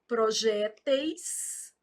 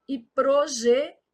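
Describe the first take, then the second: First: Projéteis drawn out, pro-JÉ-teis, open É; slow stressed demo. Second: Projetis, pro-je-TIS; stress on last syllable. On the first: Teacher marking the stressed syllable, Projéteis slow. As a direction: stretch Projéteis and lean on JÉ. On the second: Teacher marking the stressed syllable, projetis stressed on TIS. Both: Shown as a demonstration. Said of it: "tô marcando a sílaba tônica".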